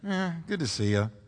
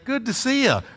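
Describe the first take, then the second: First: It is said grudgingly and sarcastically. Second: It is said warmly and sincerely.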